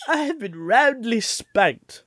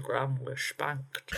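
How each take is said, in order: First: Slow, high, mock-posh roundly spanked; hammed-up posh delivery. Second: Lightly imitated Sean Connery; a hint of Sean Connery, slushy s; Sean Connery impression. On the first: Shown as a demonstration. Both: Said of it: "How would Sean Connery say it?".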